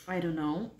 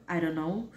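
The two takes are said the same way.

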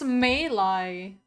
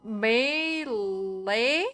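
First: "melee" said slowly as MAY-lie. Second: "melee" drawn out as MAY-lay, rising; MEH-lay. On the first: Streamer confirming the new pronunciation, "melee" as slow MAY-lie. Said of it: "So it's melee". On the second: Streamer going back to the old version, "melee" as drawn-out MAY-lay. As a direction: stretch "melee" into a doubtful MAY-lay question. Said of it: "I feel terrible saying it". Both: Shown as a demonstration.

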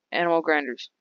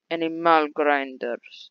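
First: Said in the usual way. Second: Slow, playful drawl on the words; drawn-out repeat. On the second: Pretend. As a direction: stretch out each syllable slowly.

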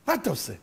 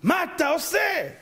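First: Said in the usual way. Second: High, drawn-out cry of disbelief; slow, wailing exasperation; exasperated outcry. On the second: Acted. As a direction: stretch the question out, pitched way up. Same question escalated into outcry.

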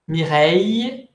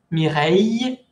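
First: Slow "Mireille", ending in a y glide; careful pronunciation. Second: "Mireille" repeated, mee-REY with y ending; pronunciation demo. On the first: Teacher models "Mireille" slowly for students. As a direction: draw out "Mireille", final ill as ee-y. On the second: Teacher repeats "Mireille" after explaining the spelling. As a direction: repeat "Mireille", ill sounding like y. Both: Shown as a demonstration. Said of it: "que se pronuncia I".

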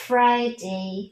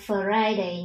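First: "Friday" with a voiceless f running straight into r; correct pronunciation. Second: "Friday" with an extra vowel, fuh-ri-day; wrong pronunciation. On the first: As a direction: blend "fr" cleanly in "Friday". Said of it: "chúng ta sẽ cùng phát âm lại". (đọc "Friday" liền âm "fr", không chêm "ơ") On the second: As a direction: break the "fr" of "Friday" with an uh. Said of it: "các con sẽ không đọc là". (đọc sai "Friday" thành "phờ-rai-đây") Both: Shown as a demonstration.

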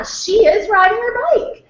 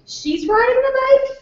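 First: Much higher, drawn-out, agreeing statement; encouraging parent modeling grammar. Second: "She's riding the bike" rising high into a question; question form. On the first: Parent answering a child's grammar slip, agreeing and correcting. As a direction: agree and model it back, high and slow. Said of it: "the parent could say". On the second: Parent prompting a child to repeat, "She's riding the bike" as a high question. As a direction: lift "the bike" way up, as if asking. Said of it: "like a question form". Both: Shown as a demonstration.

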